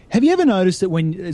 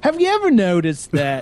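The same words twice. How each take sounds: First: A light Jerry Seinfeld opener, voice raised; Seinfeld impression. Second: A higher, lightly voiced Jerry Seinfeld opener; Seinfeld impression. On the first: Setting up a joke for the hosts, a light Seinfeld-style opener. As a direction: start it like a Seinfeld bit. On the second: Retaking the joke for the hosts, a light Seinfeld-style opener. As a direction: lean into the Seinfeld comic setup. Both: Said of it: "this was a Jerry Seinfeld beginning joke".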